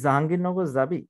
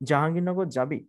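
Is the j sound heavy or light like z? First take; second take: light; heavy. First: The j sounds are light, like a z. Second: The j sounds are heavy, said with pressure. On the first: The speaker calls it wrong. "বাংলাদেশের আমরা অনেকে ভাবে উচ্চারণ করি" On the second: The speaker calls it right. "মূলত এটার উচ্চারণটা এরকম হবে"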